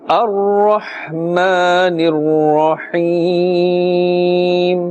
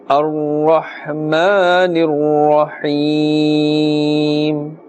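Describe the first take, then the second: Both takes have the same delivery.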